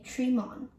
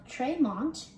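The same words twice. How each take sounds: First: Tremont with a short e; local pronunciation. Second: Tremont with a long first vowel; mistaken pronunciation. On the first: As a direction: say Tremont as TREH-mont. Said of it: "you should say". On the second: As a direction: say Tremont as TREE-mont. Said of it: "Instead of". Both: Shown as a demonstration.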